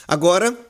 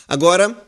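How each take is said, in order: Both takes have the same delivery.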